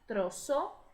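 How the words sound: It is said with an s sound, South American.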